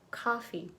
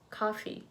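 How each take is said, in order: First: The first vowel is an open 'ah' sound. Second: The same.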